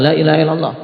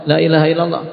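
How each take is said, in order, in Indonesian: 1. Diucapkan dengan cara yang memaksa dan mendesak. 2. Diucapkan dengan cara yang memaksa dan mendesak.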